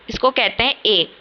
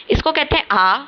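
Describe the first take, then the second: First: ए said as a closed German ay; German letter E. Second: आ said as an open German ah, raised in pitch; German letter A. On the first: Teacher contrasting German E with A, clear ay. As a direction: say ए as a clean ay, not ah. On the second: Teacher contrasting German A with E, clear ah. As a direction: say आ as a long open ah. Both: Shown as a demonstration. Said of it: "ए हम बोलते तो ए इसे हैं".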